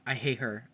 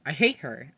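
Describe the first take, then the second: First: Said in the usual way. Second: Louder I hate her. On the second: Real, not acted. Vlogger ranking Big Brother houseguests, louder hateful repeat.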